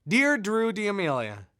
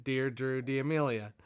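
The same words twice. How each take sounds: First: "Dear Drew D'Amelia" read louder and higher, each word leaned on; emphatic greeting. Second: Said in the usual way. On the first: Retold or imitated. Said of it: "And for emphasis". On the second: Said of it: "he writes again".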